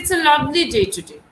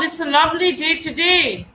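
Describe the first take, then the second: First: It is said in a plain, neutral tone. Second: It is said with high energy and enthusiasm. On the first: It simply states a fact. "it's just a simple statement that I'm making" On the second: The speaker is delighted about the day. "My energy, my enthusiasm, my emotions are more expressed here"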